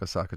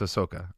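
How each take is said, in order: First: The name sounds like the Japanese city Osaka. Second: The name sounds like Ahsoka, not the city. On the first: The speaker calls it wrong. "I said it like Osaka, Japan" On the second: The speaker calls it right. "It's Osaka"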